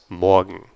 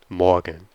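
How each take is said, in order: Both takes have the same delivery.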